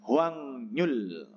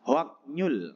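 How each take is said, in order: First: It is read with ng then n in the middle. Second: It is read with k then n in the middle. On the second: "Yang pertama sebenarnya bacanya"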